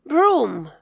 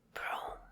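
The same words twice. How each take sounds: First: Said in the usual way. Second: Whispered echo of "Broom". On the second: Shown as a demonstration. Teacher whispering the word back for kids. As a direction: breathe "Broom" with no voice.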